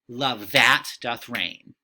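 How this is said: The stress falls on the word that. The speaker calls it wrong. "if we were to read it in that typical iambic pentameter way, it wouldn't sound quite right"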